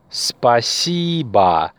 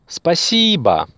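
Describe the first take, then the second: First: Спасибо said very slowly, spa-SI-ba with a falling end; slow model word. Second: Спасибо at normal speed, SI lifted high; stress on second syllable. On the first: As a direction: draw out Спасибо syllable by syllable. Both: Shown as a demonstration. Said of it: "The stress is on the second syllable".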